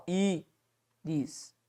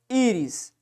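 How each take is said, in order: First: Íris split slowly into Í, RIS with a long gap; soft, detached syllables in íris. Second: Said in the usual way. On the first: Shown as a demonstration. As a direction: count out íris quietly as two syllables. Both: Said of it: "tem duas sílabas".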